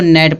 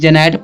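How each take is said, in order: First: The word starts with an n sound. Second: The word starts with a sounded g. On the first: The speaker calls it right. "इसको नेट पढ़ा जाएगा" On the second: The speaker calls it wrong. "कुछ लोग जेनेट पढ़ते इसको। अब जेनेट नहीं पढ़ा जाएगा"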